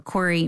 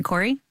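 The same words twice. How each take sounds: First: Said in the usual way. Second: "Corey?" with a quick upward question tune; name called out with a rising tune. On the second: Real, not acted. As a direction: call "Corey?" as a prompt to speak, rising at the end. Host calls on next guest.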